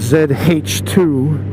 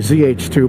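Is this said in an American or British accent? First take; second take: British; American. First: It is said British-style, with H as 'haitch'. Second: It is said American-style, with H as 'aitch'. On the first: "All the British people call it" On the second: "whereas Americans would say"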